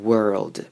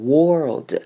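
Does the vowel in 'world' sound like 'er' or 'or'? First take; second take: er; or. First: The vowel sounds like 'er'. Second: The vowel sounds like 'or'. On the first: The speaker calls it right. "要发成像er 端母音er 的声音" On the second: The speaker calls it wrong. "会念成world，把o 发成or 那个声音"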